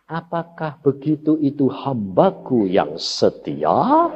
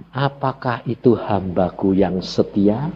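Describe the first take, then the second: First: Slow, solemn divine question; voice of God. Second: A lightly voiced, slow question from God. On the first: Retold or imitated. God questioning his grumbling servant, slow and solemn. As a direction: weigh each word like God testing his servant. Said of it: "Dia ngomong apa?". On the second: God asking the preacher if he is faithful, lightly slow. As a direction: ask it like a patient God who already knows. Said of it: "Tuhan bilang".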